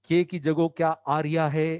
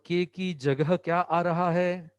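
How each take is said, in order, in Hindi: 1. यह स्थानीय बोली में बोला गया है, 'aa raha' को लड़खड़ाते हुए, धीमे से। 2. यह सादी मानक हिंदी में बोला गया है।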